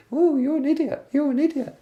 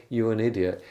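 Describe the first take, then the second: First: Very high falsetto cartoon mockery; louder, piped-up cartoon falsetto; silly squeaky voice. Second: Said in the usual way. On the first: Shown as a demonstration. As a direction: squeak the insult so it sounds ridiculous. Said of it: "inside her head she'd just repeat". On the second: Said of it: "on the outside he said".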